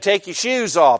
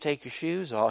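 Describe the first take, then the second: First: It is said in a firm, forceful voice. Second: It is said in a soft, effeminate voice. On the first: It is a firm command. The speaker calls it right. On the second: It is a gentle request. The speaker calls it wrong.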